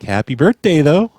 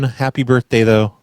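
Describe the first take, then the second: First: It is said excitedly, like an exclamation. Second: It is said flatly, without excitement.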